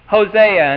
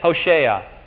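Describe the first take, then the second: First: The name has its usual English pronunciation. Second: The name has its original Hebrew pronunciation. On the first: The speaker calls it wrong. "Why should we say Hosea" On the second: The speaker calls it right. "why shouldn't we just give the Hebrew pronunciation of all these names?"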